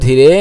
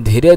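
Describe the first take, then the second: Both takes have the same delivery.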